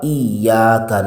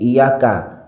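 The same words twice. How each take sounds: First: The y sound is doubled and held. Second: The y sound is short and single. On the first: The speaker calls it right. "wajib dibaca dengan benar" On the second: The speaker calls it wrong. "dibaca tanpa tasydid"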